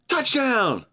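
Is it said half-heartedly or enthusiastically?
enthusiastically. It is shouted with excitement, like a fan.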